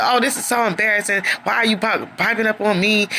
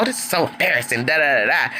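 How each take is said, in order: First: Lightly imitated upset whine, higher; upset whining. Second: Mock dismissive mumble. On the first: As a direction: whine like you're embarrassed. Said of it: "Troy just gets upset". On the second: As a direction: brush it off mockingly. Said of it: "he starts walking off".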